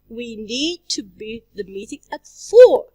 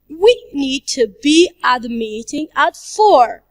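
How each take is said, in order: First: The word 'four' is stressed. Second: The word 'we' is stressed. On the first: "If we stress the word for" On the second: "if we stress the word we"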